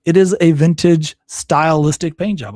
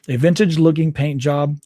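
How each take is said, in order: First: "is" hit hard, whole line louder; stress on is. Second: Said in the usual way. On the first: Real, not acted. Correcting his misreading of the article, stressing "is" louder. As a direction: correct yourself by punching "is". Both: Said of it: "No, not a vintage looking paint job".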